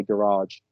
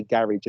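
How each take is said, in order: First: Garage said the American way, stress on the last syllable, gaRAGE. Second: Garage said the British way, stress on the first syllable; GArage, British style. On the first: Retold or imitated. Englishman imitating Americans correcting his garage. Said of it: "they'll say garage". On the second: Shown as a demonstration. Englishman saying his own garage. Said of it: "I'll say garage".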